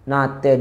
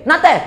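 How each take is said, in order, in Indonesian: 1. Diucapkan dengan lembut dan manis. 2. Diucapkan dengan keras dan menantang. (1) "Dengar macam comel, manja ke apa kan" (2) "beza dah, beza dah. Ah, oh, hak tu lawan dah tu"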